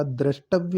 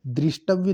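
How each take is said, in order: First: द्रष्टव्य said "drashtavya"; correct pronunciation. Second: दृष्टव्य said "drishtavya"; wrong pronunciation. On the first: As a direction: say द्रष्टव्य with "dra". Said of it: "द्रष्टव्य होता है". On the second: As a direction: put "dri" in दृष्टव्य. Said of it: "दृष्टव्य नहीं होता". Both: Shown as a demonstration.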